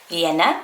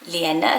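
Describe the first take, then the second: The two takes are said the same way.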